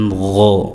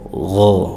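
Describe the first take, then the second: First: The first sound is a soft, rasping friction. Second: The same.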